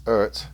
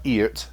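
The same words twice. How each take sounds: First: "Ert" with an ur vowel, as in earth; correct "ur" pronunciation. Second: "Eert" with a long ee vowel; wrong "ee" pronunciation. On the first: Reviewer correcting the brand name for viewers, "Ert" with an ur sound. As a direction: say "Ert" as one syllable, ur then t. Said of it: "it's Ert". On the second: Reviewer showing viewers the mistaken name, "Eert" with an ee sound. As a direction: say "Eert", ee as in ear, ending in t. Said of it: "So it's not Eert". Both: Shown as a demonstration.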